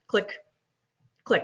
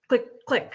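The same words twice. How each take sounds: First: The two clicks are said slowly, spaced apart. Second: The two clicks are said very quickly together.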